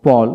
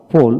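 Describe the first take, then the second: First: পল as a lone word, open "aw" vowel; American পল for learners to copy; American pronunciation drill. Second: পোল as a lone word, rounded "oh"; British পোল for learners to copy; British pronunciation drill. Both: Shown as a demonstration. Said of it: "এইভাবে দুইটা উচ্চারণে পড়াবেন".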